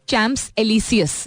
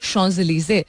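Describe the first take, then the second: First: It is read with English spelling sounds. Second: It is said with French sounds. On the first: The speaker calls it wrong. "बहुत सारे लोग दुनिया भर में प्रोनाउंस करते थे" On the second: The speaker calls it right. "That's how it's pronounced"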